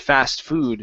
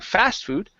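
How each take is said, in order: First: The stress falls on the second word. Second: The stress falls on the first word. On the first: The speaker calls it right. "we stress the, the second word" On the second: The speaker calls it wrong. "Instead of saying fast food"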